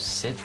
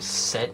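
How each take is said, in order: First: The vowel sounds like the one in bit. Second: The vowel sounds like the one in bet. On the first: This is the usual way to say it. The speaker calls it right. "instead of sit" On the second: This is how some people say it. The speaker calls it wrong. "I hate when people say set"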